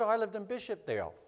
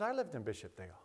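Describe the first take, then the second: First: Higher-pitched, light reply; retold reply with a lifted pitch; lively retold reply. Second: Low, quiet echo; retold reply, hushed and lower; subdued retold echo. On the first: Trading hometowns, his own reply. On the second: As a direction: drop it low and soft. Don's echo of the same words.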